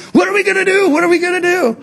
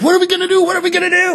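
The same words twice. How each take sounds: First: Same high mock panic, a touch louder; comically frantic, high-pitched plea; Moses. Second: Mock panic, pitched way up; freaking out. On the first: Preacher mimics Moses turning to the Lord, secretly panicking. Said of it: "he goes into the Lord and he says". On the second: Preacher mimics the people at the Red Sea, freaking out. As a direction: imitate a crowd in a high, frantic wail. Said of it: "they're freaking out".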